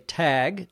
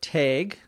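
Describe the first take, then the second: First: It has a common short A vowel. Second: It has a Minnesotan long A vowel.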